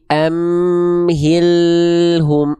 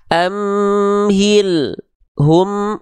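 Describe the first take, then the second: First: The L flows straight into the next sound. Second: The L is cut off with a short break. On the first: The speaker calls it right. "l-nya terus ngalir" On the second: The speaker calls it wrong. "lam sukun nggak boleh dibaca amhil hum, ... kayak ada hentakan lam sukun"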